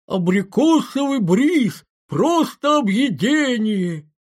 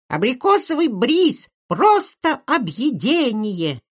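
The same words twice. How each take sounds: First: Put-on high, drawn-out squeaky ad kid; breathy cutesy giggly. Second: Put-on high, slow squeaky kid's jingle voice; breathy cutesy giggly. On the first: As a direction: stretch it like a cloying TV kid. (приторный писклявый голос ребёнка из рекламы) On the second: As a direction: sing it out like a cute freckled ad kid. (писклявый детский голосок из рекламы) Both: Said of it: "ребёнок с веснушками и писклявым голосом".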